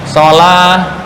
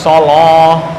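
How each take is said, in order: First: The L is light and thin. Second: The L is heavy and thick. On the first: The speaker calls it right. "asal huruf lam adalah dibaca tarkik atau tipis" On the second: The speaker calls it wrong.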